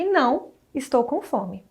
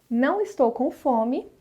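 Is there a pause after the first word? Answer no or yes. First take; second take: yes; no. First: There is a pause right after não. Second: It runs on without a pause after não. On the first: The person denies something and says they are hungry. "Há primeiro uma negação, depois uma pausa e depois a afirmação" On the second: The person is not hungry.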